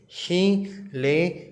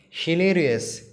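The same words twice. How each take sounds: First: Hilarious drawn out slowly as hi-la-ri-ous; syllable by syllable. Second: Said in the usual way. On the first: Shown as a demonstration. Teacher sounding out syllables for children, slowly. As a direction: break hilarious into four slow parts. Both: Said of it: "four syllables".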